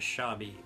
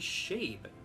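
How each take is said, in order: First: The name is said with two syllables. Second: The name is said with one syllable. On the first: The speaker calls it wrong. "I have had so many people pronounce it as Shabi" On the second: The speaker calls it right. "it would just be Shabe"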